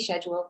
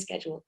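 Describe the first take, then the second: First: The word is said with a British pronunciation. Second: The word is said with an American pronunciation. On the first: English people say it this way. The speaker calls it right. "we say schedule" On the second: English people do not say it this way. The speaker calls it wrong. "we don't say schedule"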